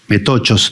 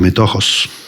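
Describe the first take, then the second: First: The middle consonant is a hard k sound. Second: The middle consonant is a rasping h sound.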